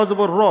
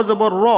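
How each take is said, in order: No difference in how they are said.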